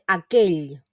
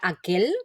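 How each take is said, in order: First: The word ends with a palatal LL sound. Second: The word ends with a plain L sound. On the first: The speaker calls it right. "la pronunciación correcta es aquell" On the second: The speaker calls it wrong. "no debemos pronunciarla como una ele, no sería aquel"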